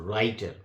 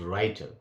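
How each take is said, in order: No difference in how they are said.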